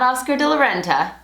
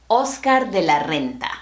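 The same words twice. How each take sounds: First: Renta with English r, REN-tuh; English-style Oscar de la Renta; anglicized Oscar de la Renta. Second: Renta with rolled r, RREN-ta; Spanish Oscar de la Renta. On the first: Teacher showing the wrong English way to say it. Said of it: "Not Oscar de la Renta". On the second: Teacher modelling the correct Spanish name. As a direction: roll the r in Renta. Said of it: "the correct pronunciation is". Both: Shown as a demonstration.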